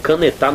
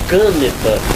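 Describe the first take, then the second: First: The stress falls on the last syllable. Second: The stress falls on the first syllable. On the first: "não existe canetar" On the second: "ou é a antepenúltima ... aí ficaria caneta. Não existe caneta"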